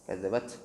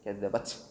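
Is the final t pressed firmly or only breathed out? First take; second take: breathed; breathed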